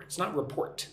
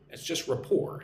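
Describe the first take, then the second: First: "report" as the wrong form, with re- and a sounded T; wrong version. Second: "rapport" said ra-POR, no T at the end; silent T. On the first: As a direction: contrast it: say "report" with a clear T. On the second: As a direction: drop the T in "rapport" completely. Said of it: "You don't say the T". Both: Shown as a demonstration.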